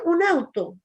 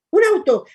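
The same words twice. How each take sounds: First: Older brother's mild taunt, imitated; teasing call. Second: Sudden loud mocking yell, pitched up high; a brother's taunting cry of "¡Un auto!"; teasing shout. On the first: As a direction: tease her casually, half-hearted. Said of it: "el Pablo simplemente le decía". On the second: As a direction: shout it to startle your little sister. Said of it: "el Pablo siempre le hacía burla".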